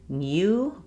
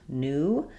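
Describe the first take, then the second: First: A y sound comes before the oo vowel. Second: No y sound comes before the oo vowel. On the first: The speaker calls it wrong. "it's not new" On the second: The speaker calls it right. "we have dropped this y sound"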